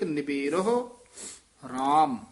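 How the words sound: There is a pause before the last word. The speaker calls it right. "ਇੱਥੇ ਵਿਸਰਾਮ।"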